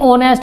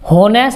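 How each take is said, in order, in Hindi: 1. यह शब्द o स्वर की आवाज़ से शुरू होता है। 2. यह शब्द h की आवाज़ से शुरू होता है। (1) "ओनेस्ट कहते हैं, ओ की आवाज आती है" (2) "कभी भी हम होनेस्ट नहीं कहते"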